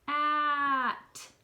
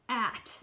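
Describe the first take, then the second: First: Slow stretched sound. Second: Quick, blended word; said fast. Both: Shown as a demonstration. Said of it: "Say the fast way".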